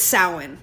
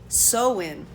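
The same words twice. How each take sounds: First: The first syllable rhymes with cow. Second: The first syllable rhymes with so. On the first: The speaker calls it right. "it's sow like cow, not not so. So it's Samhain" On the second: The speaker calls it wrong. "So I read it Samhain. Cause I was think I was thinking so like S E W"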